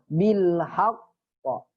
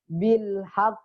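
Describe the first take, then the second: First: The final q bounces toward an 'a' sound. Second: The final q stops with no echo. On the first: The speaker calls it right. "Semuanya ke fathah" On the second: The speaker calls it wrong. "Jangan dibaca bil haq"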